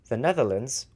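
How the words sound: It is said in a non-American accent. The speaker calls it right. "in the accent that I usually say it"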